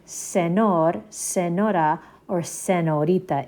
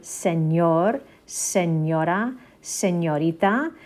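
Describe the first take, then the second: First: "senor, senora, senorita" with a plain English n and no ñ. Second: "señor, señora, señorita" with a clear palatal ñ, like "ny" in canyon; Spanish ñ. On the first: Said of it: "instead of it being". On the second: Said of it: "So this one is Ñ". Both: Shown as a demonstration.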